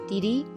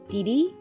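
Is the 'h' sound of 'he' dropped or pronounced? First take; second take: dropped; dropped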